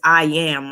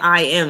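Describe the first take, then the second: First: The word am starts with a y sound. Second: The word am is said plainly, without a y. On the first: "it says I am, like yam" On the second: "instead of saying I am"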